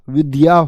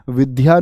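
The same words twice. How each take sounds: First: The middle consonant is a plain 'd' before 'ya'. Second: The middle consonant sounds like a breathy 'dh'. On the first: The speaker calls it right. "विद्या होता है" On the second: The speaker calls it wrong. "भैया विद्या नहीं होता"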